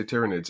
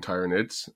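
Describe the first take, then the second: First: Tyranids with a short i, as in tyranny; TIRR-uh-nids, short first vowel in Tyranids; short-i pronunciation. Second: Tyranids with a long i, as in tyrant; TIE-ruh-nids, long first vowel in Tyranids; long-i pronunciation. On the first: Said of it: "now I say Tyranids". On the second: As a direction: start Tyranids like the word "tie". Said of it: "when I was a kid saying Tyranids". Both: Shown as a demonstration.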